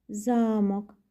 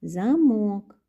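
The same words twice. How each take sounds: First: Замок as the contrasting take, first syllable held long and level; drawn-out ЗА in замок, less forceful; stress contrast demo. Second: Замок with one syllable punched louder and pitched up; stressed замок, louder and emphatic; stress contrast demo. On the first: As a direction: say замок evenly, lengthening ЗА. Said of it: "інтонація, з якою ми ці слова вимовляємо". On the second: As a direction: say замок as a clear stress example, hitting it firmly. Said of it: "дуже подібно звучать. Слухайте". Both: Shown as a demonstration.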